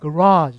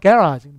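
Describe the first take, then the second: First: It is said in an American accent. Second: It is said in a British accent. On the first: "미국 가면" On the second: "영국 가면 약간"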